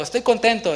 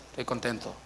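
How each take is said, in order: First: Happy declaration. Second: Much softer, lower, flat mumbled Estoy contento; joyless reply. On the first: Shown as a demonstration. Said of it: "Dile a tu hermano". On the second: Retold or imitated. Brother saying Estoy contento without feeling it, mocked by the preacher. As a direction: say Estoy contento softly and low with no joy at all. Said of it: "su cara no refleja lo que está diciendo".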